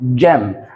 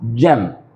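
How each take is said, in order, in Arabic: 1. بتبدأ بجيم ناعمة. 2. بتبدأ بجيم ناعمة.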